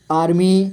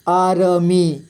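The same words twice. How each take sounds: First: Said in the usual way. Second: आर्मी as आ, र, मी; letter by letter. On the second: Shown as a demonstration. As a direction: give र its own vowel in आर्मी. (आर्मी को तोड़कर: आ, र, मी) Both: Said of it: "थोड़ा fast पढ़ेंगे".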